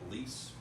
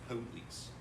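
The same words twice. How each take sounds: First: The first syllable is squeezed so it sounds like please. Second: Both syllables of the word are clearly pronounced. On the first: The listener hears the word please. The speaker calls it wrong. "they think you're saying please" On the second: The listener understands it as police. The speaker calls it right. "So it's police"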